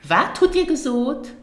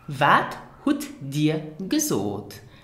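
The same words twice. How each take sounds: First: It is said quickly and relaxed, like natural speech. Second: It is said slowly and carefully.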